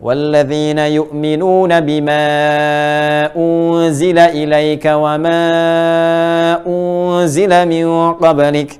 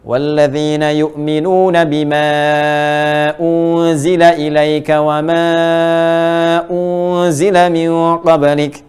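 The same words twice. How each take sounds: First: The stretched vowels are held about three seconds. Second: The stretched vowels are held about three seconds.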